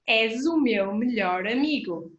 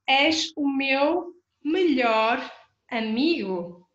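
First: It is said fast. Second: It is said slowly.

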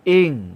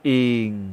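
First: The syllable is said with a falling tone. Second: The syllable is said with a low tone. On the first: "เสียงวรรณยุกต์โท" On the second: "เอก"

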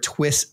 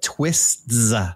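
First: The name ends on a plain t sound. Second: The name ends with an added s sound. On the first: It names a single thing. The speaker calls it right. "You said it right the first time" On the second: It names more than one thing. The speaker calls it wrong. "it's not Twist plural"

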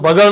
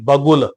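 First: The second syllable has a short a vowel. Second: The second syllable has a u vowel. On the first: The speaker calls it wrong. "ਇਹਨੂੰ ਬਗਲ ਨਹੀਂ ਪੜਨਾ" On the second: The speaker calls it right. "ਆਪਾਂ ਉਚਾਰਨ ਕਰਾਂਗੇ ਬਗੁਲ"

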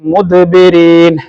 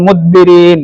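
First: The d is released clearly with a bounce. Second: The d is not released clearly. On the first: The speaker calls it right. "അങ്ങനെ തന്നെ നമ്മൾ പറയണം" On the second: The speaker calls it wrong. "എന്ന് പറഞ്ഞാൽ ശരിയാവുകയില്ല"

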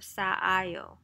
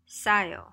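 First: Two separate a vowels are pronounced. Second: The two vowels merge into one a vowel. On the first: The speaker calls it wrong. "instead of 싸아요" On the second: The speaker calls it right. "싸요 instead of 싸아요"

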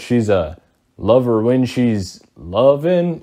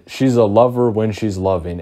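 First: It is said hesitantly, with a pause before the end. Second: It is said smoothly and confidently, without hesitation. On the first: The singer was unsure what word would come next. "he literally goes, ... even he took a second to go" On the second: The speaker knew what they were going to say. "I said that with my chest. Like, I was confident"

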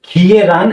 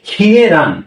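The two takes are said the same way.

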